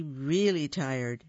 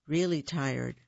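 First: Really stretched slowly; really tired said slowly and sleepily; drawn-out tired. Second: Said in the usual way. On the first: A narrator's reading.

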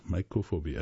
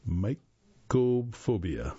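First: Said in the usual way. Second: Mycophobia drawn out syllable by syllable; sounded out slowly. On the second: Real, not acted. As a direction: stretch out "mycophobia" slowly and deliberately. Introduces an unfamiliar term.

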